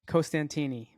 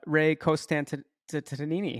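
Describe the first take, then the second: First: The name is said with four syllables. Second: The name is said with one extra syllable. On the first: The speaker calls it right. "I said it right the second ish time" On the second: The speaker calls it wrong. "one too many syllables"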